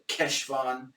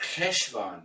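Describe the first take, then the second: First: The word starts with a hard k sound. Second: The word starts with a throaty ch sound. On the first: "with a solid Keshvan" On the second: "the Germanic ch, like Bach"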